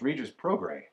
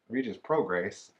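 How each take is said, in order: First: The final S of the surname is silent. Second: The final S of the surname is pronounced. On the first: The speaker calls it right. "The S is silent" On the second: The speaker calls it wrong. "it's not"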